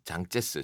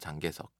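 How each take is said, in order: First: The name is read with Chinese sounds. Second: The name is read with Korean sounds. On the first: "장제스 중국어로는" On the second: "한국에서는 장개석"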